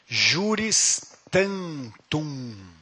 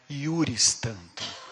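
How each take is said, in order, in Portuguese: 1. A primeira palavra começa com som de 'zh'. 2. A primeira palavra começa com som de 'y'.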